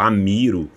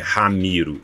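First: The name starts directly with a vowel. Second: The name starts with a breathy h sound. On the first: "Se porventura não foi" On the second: "esse H é aspirado"

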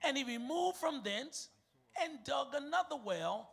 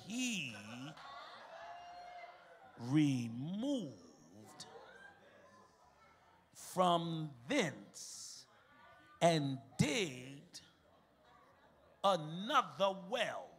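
First: The sentence is read at a quick pace. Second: The sentence is read at a slower pace. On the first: "Was that too quick?" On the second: "y'all want me to read it slower?"

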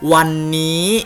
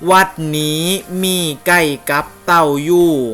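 First: It is said with Central Thai tones. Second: It is said with Phu Thai tones. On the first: "เมื่อกี้ออกเสียงเป็นวันนี้ใช่ไหมครับที่เป็นภาษากลาง" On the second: "ผมจะลองอ่านให้เป็นสำเนียงของภาษาภูไทยนะครับ"

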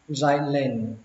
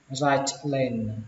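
First: The t is replaced by a brief catch. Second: The t is clearly pronounced before lane. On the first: "các bạn ngắt giọng nó một chút và bỏ âm t ra" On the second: "cách có âm t thì nó chuẩn hơn"

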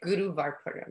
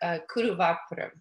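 First: The name begins with a G sound. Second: The name begins with a K sound. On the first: "You can say it with a K or a G" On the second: "You can say it with a K or a G"

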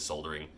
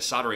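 First: The word is said in the British pronunciation. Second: The word is said in a non-British pronunciation. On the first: "the British pronunciation is soldering" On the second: "I've been calling it soldering iron my whole life"

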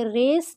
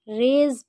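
First: The word ends with an s sound. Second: The word ends with a z sound. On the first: The speaker calls it wrong. "इसे रेस नहीं पढ़ेंगे" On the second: The speaker calls it right. "रेज पढ़ेंगे"

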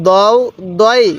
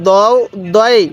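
No difference in how they are said.

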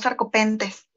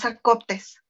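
First: The word has an 'en' sound before 't'. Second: The word has no 'n' sound before 't'. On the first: The speaker calls it wrong. "no sarcopentes" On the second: The speaker calls it right. "es Sarcoptes"

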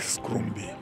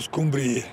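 First: The r sound comes right after the sc. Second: The r sound comes after the m b. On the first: This is the form the speaker believes correct. "dar mie mi se pare că scrumbie" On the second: This is how people said it in childhood. "În copilărie spuneau scumbrie"

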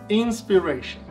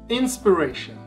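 The two takes are said the same way.

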